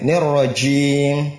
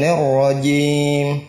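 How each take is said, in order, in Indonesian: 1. Bunyi j itu berdesir, dengan angin yang keluar. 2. Bunyi j itu tegas, tidak ada angin yang keluar. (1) "Tidak boleh" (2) "jim tidak keluar angin"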